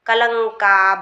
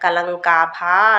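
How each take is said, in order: First: The final vowel is cut short. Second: The final vowel is drawn out long. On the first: The speaker calls it right. "దీర్ఘం రాకుండా చూసుకోండి" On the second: The speaker calls it wrong. "కలంకాభా అనకుండా"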